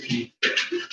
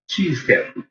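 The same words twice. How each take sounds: First: Quick unvoiced whisper, as a secret; "She eats cat food" whispered under the breath; whispered aside. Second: Said in the usual way. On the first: Real, not acted. Whispered aside then repeated.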